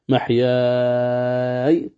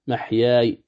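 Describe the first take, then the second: First: The final long vowel is held very long. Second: The final long vowel is held briefly. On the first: "محياي طول" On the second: "محياي قصر"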